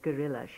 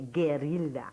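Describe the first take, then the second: First: The word is said in a relaxed, ordinary way. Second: The word is said with exaggerated, careful articulation. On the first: "instead of gorilla" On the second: "a kind of an over-pronunciation"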